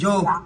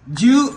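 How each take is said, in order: First: The word ends with an 'o' vowel. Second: The word ends with a 'u' vowel. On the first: The speaker calls it wrong. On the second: The speaker calls it right.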